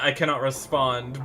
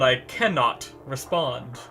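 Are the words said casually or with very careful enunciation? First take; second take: casual; enunciated. First: The words are said in a casual, ordinary way. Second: Each word is sharply and carefully articulated. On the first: "a lot of people say I cannot respond" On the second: "the way he said it was like, ... he really enunciates his words"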